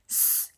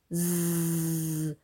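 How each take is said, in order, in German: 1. Das S ist ein stimmloses Zischen. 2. Das S ist ein stimmhaftes Summen. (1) "dass es nicht wie ein S klingt" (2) "sondern S, wie eine Biene"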